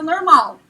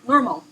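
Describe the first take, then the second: First: Said with a rural Brazilian countryside accent. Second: Said in American English, stressing the first syllable. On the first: "Com uma leve entonação do interior" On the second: "Com ênfase na primeira sílaba, você já fala do jeito americano"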